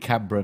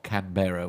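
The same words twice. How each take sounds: First: The ending is short and reduced. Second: The ending is full, like 'borough'. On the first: The speaker calls it right. "should be Canberra" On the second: The speaker calls it wrong. "not Canberra, which I keep I keep doing a bit like Farnborough"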